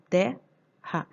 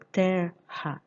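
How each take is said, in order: First: "terra" as "te-ha", open "te" then "ha"; R's kept together. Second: "terra" cut as "ter-ha", first syllable closed by R; split double R. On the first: Teacher showing the spoken division, "terra" as te-rra. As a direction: slowly say "terra" with no R closing "te". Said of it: "eu falo terra". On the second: Teacher rejecting a division, "terra" pronounced ter-ra. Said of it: "Eu não falo terra". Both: Shown as a demonstration.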